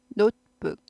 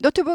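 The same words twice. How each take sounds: First: The first vowel glides from 'o' to 'u'. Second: The first vowel is a plain, flat 'o'. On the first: The speaker calls it right. "오우 발음 꼭 하셔야 돼요" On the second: The speaker calls it wrong. "노트북 아니에요"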